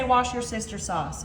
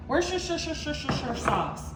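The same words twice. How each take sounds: First: "Wash Your Sister sauce" said as four plain words, wash, your, sister, sauce; joke pronunciation. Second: "Worcestershire sauce" said slowly and carefully, the proper way; careful proper name. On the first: Host repeating the viewers' nickname for the sauce, playful. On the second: Host naming the sauce properly before the joke version, slow and careful. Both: Shown as a demonstration. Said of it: "One of y'all taught me to say".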